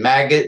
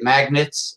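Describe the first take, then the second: First: It is said with a hard g, no n. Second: It is said with an n sound, like magnets. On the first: The speaker calls it right. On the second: The speaker calls it wrong.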